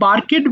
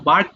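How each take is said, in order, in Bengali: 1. শেষের অংশ একটি অতিরিক্ত শব্দাংশ যোগ করে। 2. শেষের অংশ কোনো অতিরিক্ত শব্দাংশ যোগ করে না। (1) "এটা বার্কেড বলো না" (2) "বার্কড হবে"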